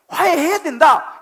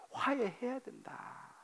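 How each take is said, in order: First: Loud and higher, 화해해야 punched; 화해해야 된다 hurled out as a command; preached loud. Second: Softer, slow and hushed, 화해해야 leaned on gently. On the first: Shouted command in sermon. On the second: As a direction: hold 화해해야 된다 back to a quiet murmur. Repeats the answer softly. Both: Acted.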